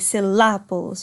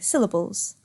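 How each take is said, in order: First: The stress is on the second syllable. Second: The stress is on the first syllable. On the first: The speaker calls it wrong. "You don't say syllables" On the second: The speaker calls it right. "We put the stress on the syll"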